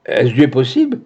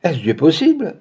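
First: "Est-ce Dieu possible?" cried out with a rising end on "possible"; mild cry of shock. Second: "Est-ce Dieu possible?" set higher, falling away on "possible"; echoed dismay. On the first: Esther hearing the son is dead, cry rising in shock. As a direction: exclaim "Est-ce Dieu possible?" in disbelief, voice climbing. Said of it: "s'écria Esther". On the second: Clémentine echoing Esther, higher and falling in dismay. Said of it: "répéta Clémentine". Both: A narrator's reading.

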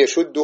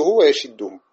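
First: "يشده" with damma on the shin, yashuddu; ضم الشين. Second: "ويشده" with kasra on the shin, wa-yashiddu; كسر الشين. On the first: (نطق "يشده" بضم الشين) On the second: (نطق "ويشده" بكسر الشين) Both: Shown as a demonstration. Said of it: "فيه الكسر والضم".

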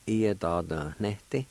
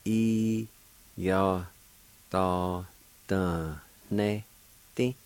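First: Said in the usual way. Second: "I, ya, ta, ta, ne, te" in slow, separated syllables. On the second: Shown as a demonstration. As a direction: sound out each syllable of "I, ya, ta, ta, ne, te", nasal N in "ne". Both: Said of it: "has a nasal sound to it".

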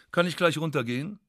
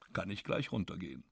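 First: Gleich rising as a question, voice going up at the end; rising question tune on "gleich"; asking question. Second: Gleich falling, the words dropped much softer and lower; falling tune, muttered under the breath; quiet statement. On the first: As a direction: ask "Kann ich gleich runtergehen?" with a hopeful rise. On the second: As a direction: say "Kann ich gleich runtergehen." flat to yourself. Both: Shown as a demonstration. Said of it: "repeated as statement".

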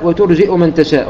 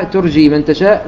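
First: "وترجئ" with a glottal stop and short u; with hamza. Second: "ترجي" with long ii and no glottal stop; without hamza. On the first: Teacher showing the second valid reading, "وترجئ" with hamza. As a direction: say "وترجئ" as wa-turji'u. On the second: Teacher showing the first valid reading, "ترجي" without hamza. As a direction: say "ترجي" as turjii, smoothly into the next word. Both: Shown as a demonstration. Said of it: "بالهمزة وبدون همزة".

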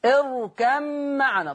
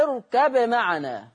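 First: اركب معنا said as ارکمّعنا, the ba merged into the mim; Hafs merging. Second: اركب معنا slowly, the ba pronounced clearly before the mim. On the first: Teacher contrasting the Hafs reading with Warsh. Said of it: "حفص كان يضغم". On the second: Teacher demonstrating Warsh's izhar. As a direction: recite اركب معنا keeping the ba distinct. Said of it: "أظهر ورش الباء". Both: Shown as a demonstration.

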